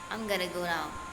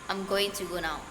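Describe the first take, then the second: First: Going to is reduced to gonna. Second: Going to is said in full. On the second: "instead of"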